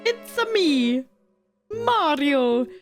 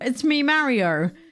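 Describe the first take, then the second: First: It is said in a Mario-style Italian accent. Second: It is said in the speaker's plain accent.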